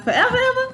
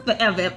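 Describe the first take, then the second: First: High squeaky forever ever; mock disbelief. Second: Said in the usual way. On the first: To herself over the lost charger, high squeaky disbelief. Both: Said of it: "I was like".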